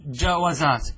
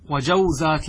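First: جوزات as "ja-wa-zaat", a after the w; forbidden echoed vowel. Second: وجوزات as "wa-jaw-zaat", no vowel after the second w; unchanged vowelless waw. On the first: Teacher shows students a banned plural, جوزات as "ja-wa-zaat". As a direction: say جوزات wrongly with a fatha on the waw. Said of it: "لا يجوز فيها الإتباع". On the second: Teacher shows students nothing changes, وجوزات as "wa-jaw-zaat". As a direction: keep the diphthong "jaw" before z in وجوزات. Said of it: "لا نغير شيئا". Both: Shown as a demonstration.

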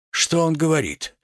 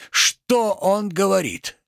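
First: Quick first take of a stunned question; indignant question. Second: Higher, drawn-out incredulous question; escalating outrage. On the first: Tragedian asks bystander, first take. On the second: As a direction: stretch the question up in theatrical disbelief. Tragedian repeats question, more outraged. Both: Acted.

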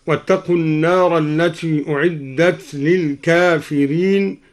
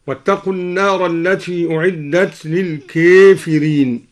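First: Said in the usual way. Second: للكافرين with its long a tilted toward e; imala on الكافرين. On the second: Shown as a demonstration. Teacher shows al-Duri's reading of للكافرين, with imala. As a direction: say للكافرين as "lil-keefireen". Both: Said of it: "قرأ الدوري بإمالة الكافرين هكذا".

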